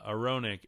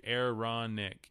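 First: "Aaronic" said quickly, sounding like a-RO-nik; first try at Aaronic. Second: "Aaronic" said slowly and deliberately as air-RON-ik; careful repeat of Aaronic. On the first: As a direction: toss off "Aaronic" with an O in the middle. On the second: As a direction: draw out "Aaronic", opening with AIR and stressing RON. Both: Shown as a demonstration. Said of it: "my accent screws up a lot of these".

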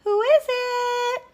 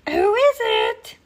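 First: Put-on very high, slow old-lady call; Granny calling out. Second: Very high, loud, slow call; wolf posing as a sweet granny; sweetest Granny voice. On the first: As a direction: call to the door like a storybook granny. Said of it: "called out Granny". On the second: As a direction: call out in an exaggerated old-lady falsetto. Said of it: "in his sweetest Granny voice". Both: A narrator's reading.

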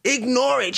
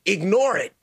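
First: "Ignore" repeated higher and harder; emphatic. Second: Said in the usual way. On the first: Real, not acted. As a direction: hit "Ignore" higher than first take. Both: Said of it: "I would just say".

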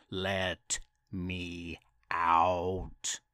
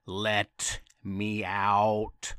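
First: Very slow, low ghostly moan; creepy mummy wail. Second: Slow, low, drawn-out wail; creepy mummy wail. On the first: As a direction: drag it out from the tomb. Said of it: "It wailed". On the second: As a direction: moan it like a trapped mummy. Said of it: "in a super creepy voice". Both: Acted.

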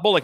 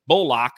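First: Said in the usual way. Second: "Bullock" punched loud as bull-OCK, second syllable full; corrected pronunciation. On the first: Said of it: "It's not Bullock, it's Bullock". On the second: Shown as a demonstration. Host jokingly correcting Reggie's surname, "Bullock" said loudly as bull-OCK. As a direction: hit "Bullock" hard, with a full LOCK at the end. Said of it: "it's Bullock".

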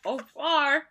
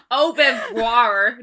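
First: Said in the usual way. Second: French drawn out in a loud American accent; mock American French, slow and laughing; exaggerated American accent. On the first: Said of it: "No, I'm kidding". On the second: Shown as a demonstration. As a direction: say it as American as you can. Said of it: "as American as you can".

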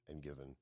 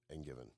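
No difference in how they are said.

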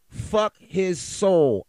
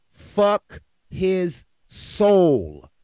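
First: Slow, drawn-out, louder angry curse. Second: Very slow, loud, stretched-out curse; bellowed curse. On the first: Ranting podcaster curses a killer, slow and loud. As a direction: spit the curse out slowly, furious. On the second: Podcaster repeats his curse at the killer, bellowing slowly. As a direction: drag out every word in fury. Angry rant about a killer. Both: Real, not acted.

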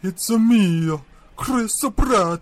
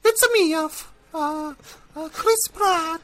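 First: Plumber voice brought down lower; same cartoon plumber, pitched down a notch. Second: Much higher squeaky cartoon plumber voice; fat Italian plumber voice. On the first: Actor redoing the audition line lower after the agent's note. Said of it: "Can we lower that a little bit?". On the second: Actor doing a voice audition for his agent, squeaky plumber voice. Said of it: "Can you do a fat Italian plumber voice?".

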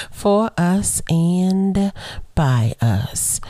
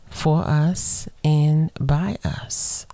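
First: Slowed, stretched repeat; deliberate slow reprise; slow again. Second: Said slowly, each word spaced out; slow, weighty emphasis; slow and deliberate. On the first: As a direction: lean into each word slowly. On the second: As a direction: drag it out for weight. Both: Shown as a demonstration. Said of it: "Why she say that part so slow?".

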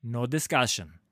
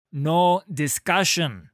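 First: Said in the usual way. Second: Loud, slow, angry snap; snapped refusal. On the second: A narrator's reading. Halla silencing Sigvar's protest, angry snap. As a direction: cut him off hard, each word hit. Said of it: "she snapped".

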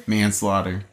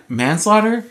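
First: Manslaughter said lower and softer, falling, decided; quiet decided Manslaughter; settled manslaughter. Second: Manslaughter said slowly with a questioning lift; slow unsure manslaughter. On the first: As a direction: confirm Manslaughter flatly to yourself. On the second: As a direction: try out manslaughter like you're unsure. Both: Real, not acted.

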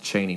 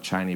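First: Long "ee" in the first syllable of "Cheney"; correct name pronunciation. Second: "ay" as in day opening "Cheney"; mistaken name pronunciation. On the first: Player explains his own surname, "Cheney" said CHEE-nee. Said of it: "my name is pronounced Cheney". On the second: Player shows how his name is misread, "Cheney" said CHAY-nee. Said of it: "not Cheney". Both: Shown as a demonstration.

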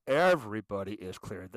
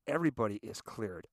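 First: "Everybody" punched hard at the start; emphatic repeat. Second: Said in the usual way. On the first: Real, not acted. Insisting that Secret Service checks all guests, stress on "Everybody". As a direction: lean hard on "Everybody", then drop away.

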